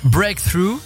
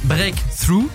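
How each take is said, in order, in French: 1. Il est prononcé avec un accent anglais complet. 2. Il est prononcé à mi-chemin entre l'anglais et le français.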